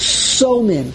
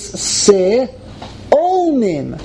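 First: The word is said with two syllables. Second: The word is said with three syllables. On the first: The word is spelled without an aleph. The speaker calls it wrong. "not so-mim" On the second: The word is spelled with an aleph. The speaker calls it right. "when you have an aleph after the tof, it's si-o-mim"

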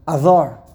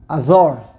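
First: The first vowel is swallowed and the d soft. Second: The first vowel is swallowed and the d soft.

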